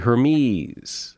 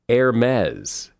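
First: The ending does not rhyme with Pez. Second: The ending rhymes with Pez. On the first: The speaker calls it wrong. "A lot of people say Hermes" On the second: The speaker calls it right. "It's actually Hermes, as in Pez"

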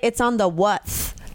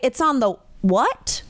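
First: The last word ends with a th sound. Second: The last word ends with a plain t. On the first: It mimics date endings like fourth and fifth. "I say it's on the what? As in like the fourth, the fifth" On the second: It is the ordinary word. "I wouldn't say it's on the what?"

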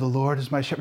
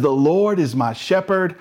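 First: It is said low and quietly. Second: It is said loudly with energy.

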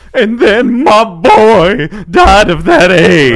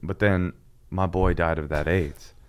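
First: It is said in an exaggerated, showy tone. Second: It is said in a serious, solemn tone.

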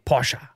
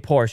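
First: Porsche is pronounced the German way. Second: Porsche is pronounced the usual English way. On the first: The speaker calls it right. "you say Porsche. You know, if you're German or European" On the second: The speaker calls it wrong. "You don't say Porsche"

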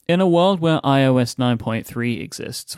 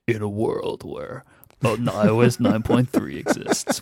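First: It is said in a plain conversational voice. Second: It is said in a deep dramatic trailer voice.

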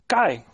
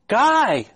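First: The name is called in a short, casual way. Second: The name is drawn out, demanding and pleading. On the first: The caller expects to be heard easily. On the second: The caller cannot find the other and grows urgent.

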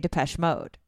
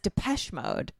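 First: The stress falls on the word Mode. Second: The stress falls on the word Depeche. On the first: This is how the speaker says the name. "I put the emphasis on mode" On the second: This is how another person says the name. "he says Depeche Mode"

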